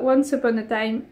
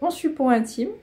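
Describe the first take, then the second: First: It is said with an English-style accent. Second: It is said with a strong French accent.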